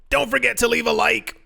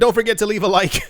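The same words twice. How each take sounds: First: It is said in an odd, put-on voice. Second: It is said in a normal speaking voice.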